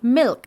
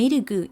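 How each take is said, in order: First: It is said with an English accent. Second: It is said with a Japanese accent. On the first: "en vez de decir milk" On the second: "los japoneses cuando dicen milk"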